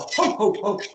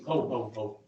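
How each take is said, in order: First: It is said in a happy voice. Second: It is said in a grumpy voice.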